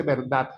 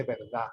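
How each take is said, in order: First: "verdad" con la d final dura, casi t; d final marcada. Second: "verdad" sin d final, "verdá"; d final caída. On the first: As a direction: remata "verdad" con una d bien pronunciada. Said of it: "Usted no dice". ("verdad" cerrado en consonante firme) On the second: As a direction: termina "verdad" en la vocal: verdá. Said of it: "te dice". ("verdad" con la última consonante muda) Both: Shown as a demonstration.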